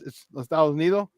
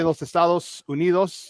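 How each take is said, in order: First: The s sounds are cut off or softened. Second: The s sounds are pronounced fully. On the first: The speaker calls it right. "They kind of cut it off" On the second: The speaker calls it wrong. "don't say"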